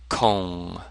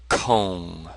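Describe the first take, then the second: First: The vowel is a rounded 'oo' sound. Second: The vowel is a rounded 'oo' sound.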